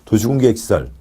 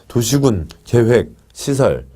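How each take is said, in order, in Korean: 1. 용어 전체를 한 호흡에 매끄럽게 말합니다. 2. 단어 사이에 쉼을 두고 끊어서 말합니다.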